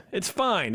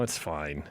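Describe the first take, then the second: First: Fine said higher, falling firmly; stress on fine. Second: Mumbled low under breath; quiet mumble. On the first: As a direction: land hard on fine, falling. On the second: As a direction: mutter it to yourself. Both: Real, not acted. Repeats it's fine, then louder.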